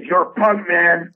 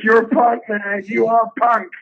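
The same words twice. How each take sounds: First: Higher, louder mock Paul voice; imitating Paul. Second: High, emphatic repeat of the praise; imitating Paul again. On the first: Comic quoting Paul Provenza's praise, pitched up and louder. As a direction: play the gushing fan, pitched up. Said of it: "he goes". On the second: Comic re-quoting Paul's praise, higher and more insistent. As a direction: pile it on, high and loud. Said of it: "He goes".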